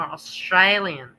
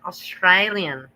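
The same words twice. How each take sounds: First: "Australian" drawn out slowly a second time, teasing; mocking drawl again. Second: "Australian" stretched out slow, mimicking her; mocking drawl. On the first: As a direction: repeat "Australian" slow and mocking. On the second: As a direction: drag out "Australian" slowly to tease her. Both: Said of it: "Say it once more".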